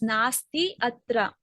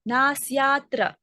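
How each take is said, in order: First: The two words are said separately, unmerged. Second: The two words merge into one word. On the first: The words are read one by one. "when we are reading word by word, we pronounce it as nasti atra" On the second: The words are read as a whole phrase. "when we are joining as a whole fragment of sentence, we call it as nasyatra"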